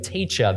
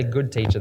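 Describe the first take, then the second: First: Said in the usual way. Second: GOOD stressed in "Good teacher"; contrasting the title. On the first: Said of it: "so he just goes with". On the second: Shown as a demonstration. Preacher sets the young man's old title against his new one, stressing GOOD. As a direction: lean on "Good" in "Good teacher" to mark it. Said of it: "he learned his lesson from the first time".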